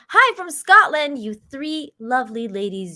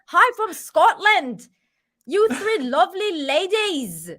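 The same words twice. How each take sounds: First: It is read in the speaker's normal accent. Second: It is said in an attempted Scottish accent.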